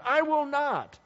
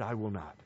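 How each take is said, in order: First: High, acted-out refusal; stubborn son saying no; defiant refusal. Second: Low, soft echo of a refusal; subdued, acted-out remorse; regretful. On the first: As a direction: refuse outright, pitched right up. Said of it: "and he answered". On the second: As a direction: quote your own refusal with quiet regret. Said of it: "he regretted it".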